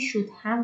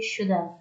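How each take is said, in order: First: Have is pronounced fully and clearly. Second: Have is reduced, like should've.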